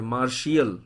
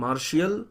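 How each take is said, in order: First: The word is said in three syllables, marshiyal. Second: The same.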